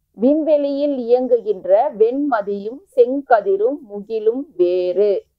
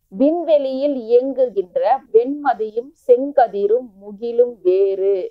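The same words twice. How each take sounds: No difference in how they are said.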